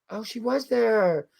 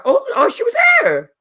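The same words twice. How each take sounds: First: Slow, soft, drawn-out wonder; hushed, lingering surprise; softer realization. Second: High-pitched shriek of surprise; real squeal of surprise; excited recognition. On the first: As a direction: let it sink in, softly and slowly. Recognition sinking in. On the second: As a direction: blurt it out high in sudden recognition. Suddenly recognizes the author. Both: Real, not acted.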